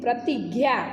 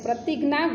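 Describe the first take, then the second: First: The middle cluster sounds like 'gya'. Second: The middle cluster sounds like 'ghna'. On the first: This is the Hindi and Sanskrit pronunciation. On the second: This is the Gujarati pronunciation.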